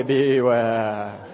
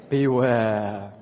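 First: Louder ominous drawn-out "Beware"; spooky beware voice. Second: Ominous drawn-out "Beware"; spooky beware voice. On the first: Pastor leading the congregation in a beware voice, spooky warning. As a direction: warn the person behind you, spooky and loud. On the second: Pastor modelling a warning for the congregation, spooky beware voice. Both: Shown as a demonstration. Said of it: "Can you do it in a beware voice?".

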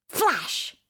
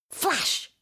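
Both takes have the same delivery.

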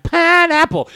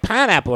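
First: Put-on high-pitched, silly kid voice; imitated laughing kid. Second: Lightly voiced kid, a bit higher; imitated giggly kids. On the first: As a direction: mimic a kid squealing a joke word. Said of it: "they're laughing. He's like". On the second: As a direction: lightly imitate kids blurting a silly word. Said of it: "they start laughing. They're like".

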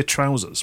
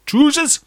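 First: Said in the usual way. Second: "Trousers" said high as Geordie "troozers"; Newcastle pronunciation. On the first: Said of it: "We say trousers". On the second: Shown as a demonstration. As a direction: say "Trousers" with an oo vowel, pitched up. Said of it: "in Newcastle they say".

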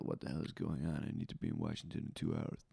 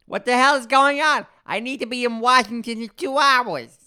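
First: Low, hushed, hurried line; awful accent attempt, imitated. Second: High, loud, overblown delivery; imitated bad actor. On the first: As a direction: mumble the line low and fast, mocking it. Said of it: "It sounded awful". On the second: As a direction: blare the line in a strained high put-on voice. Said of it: "And then he would go".

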